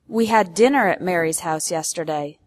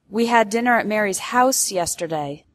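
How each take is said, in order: First: The word dinner carries the main stress. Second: The word house carries the main stress. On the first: It corrects the meal, not lunch. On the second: It corrects the place, not an apartment.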